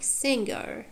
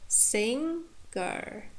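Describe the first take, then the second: First: Said in the usual way. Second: "singer" in two parts, sing, pause, er; "singer" pulled apart with a clear gap; split into morphemes. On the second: Shown as a demonstration. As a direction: say "singer" slowly, broken between stem and ending.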